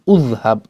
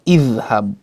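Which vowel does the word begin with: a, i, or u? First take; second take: u; i. First: The word begins with a u vowel. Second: The word begins with an i vowel. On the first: The speaker calls it wrong. "bukan udhhab" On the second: The speaker calls it right. "hamzatul wasl harus dibaca dengan kasroh"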